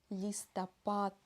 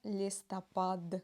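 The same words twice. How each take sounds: First: The final consonant is a voiceless T sound. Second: The final consonant is a voiced D sound. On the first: The speaker calls it right. "последнюю букву «д» мы произносим как «т»" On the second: The speaker calls it wrong. "не листопад, нет"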